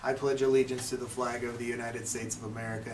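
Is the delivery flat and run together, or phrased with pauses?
flat. It runs together flatly with no pauses. The speaker calls it wrong. "without any pauses or inflections of the voice"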